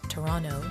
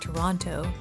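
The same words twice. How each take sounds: First: The second T is dropped entirely. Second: The second T is clearly pronounced.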